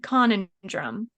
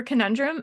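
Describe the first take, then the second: First: "conundrum" as CON-un-drum; mispronounced conundrum. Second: Said in the usual way. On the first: Retold or imitated. Quoting what they breezed past, conundrum mispronounced as CON-un-drum. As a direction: put the stress on the first syllable of "conundrum". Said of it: "they said conundrum". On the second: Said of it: "for conundrum".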